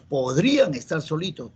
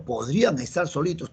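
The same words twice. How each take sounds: First: PODRÍAN leaned on, pitch rising then falling; dubitative example. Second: Said in the usual way. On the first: Shown as a demonstration. Teacher showing students a doubtful sentence, dubitative stress on "podrían".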